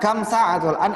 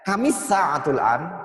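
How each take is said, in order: First: Kam is said separately, with no linking vowel. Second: Kam is joined to the next word by an i. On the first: "Bisa kam sa'atul an" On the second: "kalau menggunakan cara sambung"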